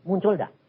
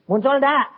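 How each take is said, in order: First: Said in the usual way. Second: Louder, higher challenge to the crowd; demanding an honest answer; pressing repeat. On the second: Real, not acted. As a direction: push the question out at them. Repeated question pressed to congregation.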